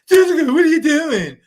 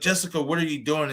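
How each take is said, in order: First: It is said in a mocking, taunting tone. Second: It is asked as a sincere, worried question.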